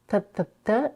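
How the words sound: The t is made with the tongue further forward. "Spanish t t t"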